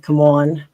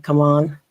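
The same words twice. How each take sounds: First: "Come on" with a South Philly vowel, louder; "Come on" as said in Delaware County; Philly-area pronunciation. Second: Said in the usual way. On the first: Shown as a demonstration. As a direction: hit "on" hard, Philly style. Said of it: "I say things like". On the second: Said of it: "a lot of people say".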